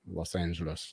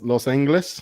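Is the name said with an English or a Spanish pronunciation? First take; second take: English; Spanish. First: It is said with an ordinary English pronunciation. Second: It is said with a Spanish-style pronunciation.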